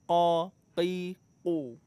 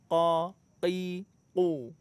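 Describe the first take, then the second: The two takes are said the same way.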